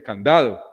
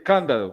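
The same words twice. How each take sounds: First: Candado stressed on the middle syllable, -da-; right stress on candado. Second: Cándado stressed on the first syllable, can-; wrong stress on cándado. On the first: Teacher to class showing the right stress on candado. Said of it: "uno dice". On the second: Teacher to class showing the wrong stress on cándado. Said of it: "uno no dice". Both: Shown as a demonstration.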